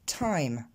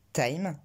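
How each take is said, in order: First: "time" with a puff of air after the t; t aspiré. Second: "time" with an unaspirated t; French-accented "time"; prononciation française. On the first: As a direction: explode the t in English "time". (« time » avec un t soufflé) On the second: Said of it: "On dit pas". (« time » à la française, sans souffle) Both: Shown as a demonstration.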